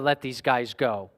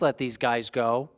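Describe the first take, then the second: First: It sounds firm and commanding. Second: It sounds meek and pleading. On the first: The speaker is giving an order. The speaker calls it right. "he's doing it with authority" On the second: The speaker is begging for a favor. The speaker calls it wrong. "isn't so much striking this tone"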